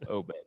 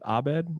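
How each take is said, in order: First: The name begins with a rounded 'oh' vowel. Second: The name begins with an open 'ah' vowel. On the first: "or is it Obed?" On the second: "like Abed from Community"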